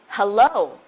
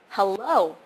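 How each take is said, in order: First: The stress is on the second syllable. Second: The same.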